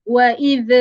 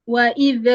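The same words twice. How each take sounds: Both takes have the same delivery.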